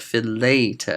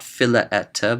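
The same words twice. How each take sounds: First: Philete said slowly with one long e, fi-LAY-te; correct contracted form. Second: Philaete said slowly with separate a and e vowels; wrong form. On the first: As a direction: stretch philete with the vowels merged into one. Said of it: "Not philaete, but philete". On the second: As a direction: spell out philaete syllable by syllable, phi-la-e-te. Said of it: "Not philaete". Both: Shown as a demonstration.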